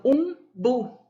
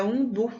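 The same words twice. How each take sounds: First: Umbu said slowly, leaning on the final bu; teacher showing the stressed last syllable of umbu. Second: Said in the usual way. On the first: Shown as a demonstration. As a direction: drag out umbu and land hard on bu. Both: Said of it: "o bu é mais forte".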